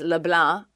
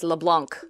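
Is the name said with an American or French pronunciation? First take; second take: French; American. First: The name is said with a French pronunciation. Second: The name is said with an American pronunciation. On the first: "his last name is LeBlanc" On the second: "in Americatown, it's LeBlanc"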